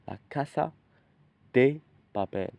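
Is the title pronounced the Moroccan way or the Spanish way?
Spanish. The title is said with a Spanish pronunciation. The speaker calls it right. "but it's really La Casa de Papel"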